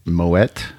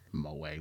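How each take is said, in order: First: Moet with the T sounded at the end, as a question; questioning "Moet", ending on a hard T; sounded final T. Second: Moet as mo-AY with silent T, said very softly; hushed "Moet", no T at the end; French-style ending. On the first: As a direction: say "Moet" as mo-ETT. Querying two ways to pronounce Moet. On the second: What are you, French?. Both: Shown as a demonstration.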